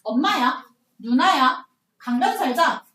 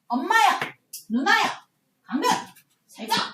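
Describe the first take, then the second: First: 강변 and 살자 are run together without pause. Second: There is a pause between 강변 and 살자.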